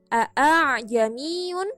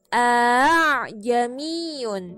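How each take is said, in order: First: The second 'a' has a full glottal stop. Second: The second 'a' is softened, between stop and vowel. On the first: This is how the word is written. "tulisannya adalah" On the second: This is how the word is recited.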